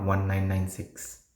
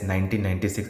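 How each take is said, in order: First: "one nine nine six", each figure separate; digit by digit. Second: "nineteen ninety-six" said as two paired numbers; read as a year. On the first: Teacher showing the wrong year reading, digit by digit. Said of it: "and not one nine nine six". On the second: Teacher showing how a year is read, in pairs. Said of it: "reading year as year". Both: Shown as a demonstration.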